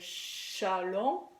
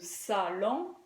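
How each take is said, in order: First: The word begins with a 'sh' sound. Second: The word begins with an 's' sound. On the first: The speaker calls it wrong. "un enfant peut dire chalon" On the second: The speaker calls it right. "au lieu de salon"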